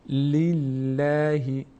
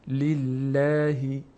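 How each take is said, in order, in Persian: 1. صدای L سبک و نازک است. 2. صدای L سبک و نازک است.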